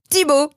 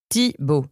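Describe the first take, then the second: First: THIBAUT exclaimed, much higher and punchier; sudden realisation. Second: Said in the usual way. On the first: Acted. Mazen solves the friend's charade, Thibaut exclaimed excitedly. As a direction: burst out with the solved answer Thibaut.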